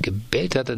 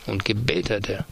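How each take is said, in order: First: "hat" lifted and stressed, "gebellt" lighter; second take, insisting on "hat". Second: "gebellt" leaned on, falling after it; first take, weight on "gebellt"; stress on gebellt. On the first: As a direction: shift the weight onto "hat". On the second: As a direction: hit the word "gebellt" first. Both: A narrator's reading. Repeated phrase in read letter.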